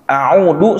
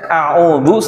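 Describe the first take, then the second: First: The word is said with a plain d sound. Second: The word is said with a dz sound. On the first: I return home. The speaker calls it wrong. "Audu saya pulang kampung" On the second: I seek refuge. The speaker calls it right. "Harusnya a'udzu saya berlindung kepada Allah"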